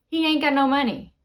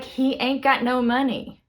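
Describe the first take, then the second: First: Said fast, words run together; quick repeat. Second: Said in the usual way. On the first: Shown as a demonstration. Teacher repeating a slang example to learners, quick and run together. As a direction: rattle off "He ain't got no money" in one go.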